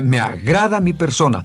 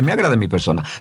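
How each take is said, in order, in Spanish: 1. Se dice con calidez, llena de sentimiento. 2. Se dice de forma plana, sin sentimiento. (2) "no dice"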